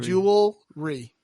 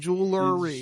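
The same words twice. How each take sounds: First: No extra syllable is heard before the r. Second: An extra syllable is heard before the r. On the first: The speaker calls it right. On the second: The speaker calls it wrong.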